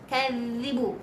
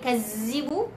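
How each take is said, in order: First: The middle consonant is a soft 'dh' sound. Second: The middle consonant is a buzzing 'z' sound. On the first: The speaker calls it right. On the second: The speaker calls it wrong.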